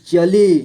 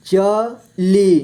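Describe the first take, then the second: First: Said in the usual way. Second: चली split slowly into च, ली; syllable by syllable. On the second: Shown as a demonstration. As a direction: stretch and separate च and ली in चली. (चली को तोड़कर धीरे: च, ली) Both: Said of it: "इस तरह से आपको".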